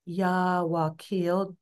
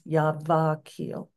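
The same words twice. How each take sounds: First: The consonant before 'akil' is a w sound. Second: The consonant before 'akil' is a v sound.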